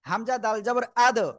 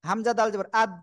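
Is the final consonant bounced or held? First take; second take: bounced; held. First: The final consonant is released with a quick bounce. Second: The final consonant is held without a bounce. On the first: The speaker calls it right. "শক্তভাবে ধাক্কা দিয়ে" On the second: The speaker calls it wrong. "এই যে ধরে রাখা যাবে না"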